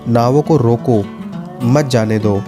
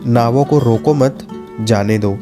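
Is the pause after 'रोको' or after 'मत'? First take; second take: after रोको; after मत. First: The pause comes after 'रोको'. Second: The pause comes after 'मत'.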